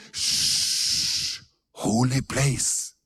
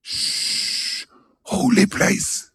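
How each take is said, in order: First: Mocking hushed whisper; whispered pious shush. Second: Mock pious shush. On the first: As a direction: hush them like in a church. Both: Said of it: "og da sa folk".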